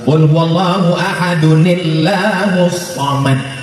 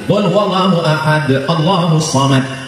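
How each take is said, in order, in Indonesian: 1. 'Ahadun' langsung tersambung ke 'illahus samad'. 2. Berhenti di 'ahad' sebelum 'Allahus samad'.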